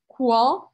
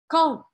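First: A 'w' sound follows the k. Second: No 'w' sound follows the k. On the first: The speaker calls it wrong. "eu não falo quand" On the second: The speaker calls it right. "Eu não pronuncio o U"

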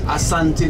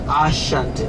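First: The consonant after the first vowel is s. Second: The consonant after the first vowel is sh. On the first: This is the local form of the name. The speaker calls it right. "The name is Ashanti" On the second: This is the form introduced by outsiders. The speaker calls it wrong. "not Ashanti. ... because the British added the H"

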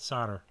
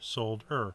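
First: The L sound is silent, like 'sodder'. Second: The L sound is pronounced, as in 'sold'. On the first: The speaker calls it wrong. "not solder" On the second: The speaker calls it right. "Solder is really the correct way to say it because it's sold"

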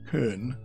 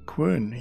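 First: The word begins with a plain k sound. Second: The word begins with a kw sound. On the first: The speaker calls it wrong. "Previously pronouncing it kern. Nope" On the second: The speaker calls it right. "Yes, I said quern"

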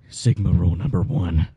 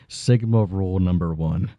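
First: It is said in a put-on Sigma voice. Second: It is said in his normal voice.

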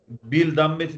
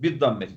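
First: The l of the article is clearly pronounced. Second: The l merges into the following d sound. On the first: The speaker calls it wrong. "bil dammeti demiyoruz" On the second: The speaker calls it right. "Bir dammeti diyeceğiz"

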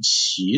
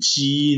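First: It has an aspirated start and a rising tone. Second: It has an unaspirated start and a level tone. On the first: The word means strange or unexpected. "奇怪的奇" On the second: The word means odd or extra. "奇是奇数嘛"

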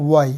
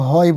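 First: The word begins with a w sound. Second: The word begins with an h sound. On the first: The speaker calls it right. "এগুলোর উচ্চারণ হবে হচ্ছে ওয়াইয়ের মতো" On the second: The speaker calls it wrong. "আসলে হ বলা যাবে না"

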